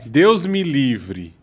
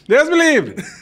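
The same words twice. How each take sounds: First: The phrase is said slowly and clearly. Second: The phrase is said quickly and rushed. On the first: This is the way that will be understood. The speaker calls it right. "Fala assim: ... Então fala devagar" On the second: This is how the other person says it. The speaker calls it wrong. "você fala muito rápido ... É que você fala assim"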